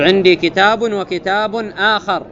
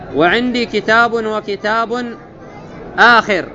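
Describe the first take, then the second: First: The last word has an a vowel after kh. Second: The last word has an i vowel after kh. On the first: The second book is a different one. "أي غيره مغاير" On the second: The second book comes at the end. "متأخر"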